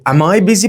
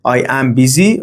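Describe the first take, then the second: First: "Am I busy" lifted higher as a question; rising question intonation. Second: Said in the usual way. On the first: Shown as a demonstration. Teacher turns a statement into a question, rising intonation. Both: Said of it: "The intonation goes up".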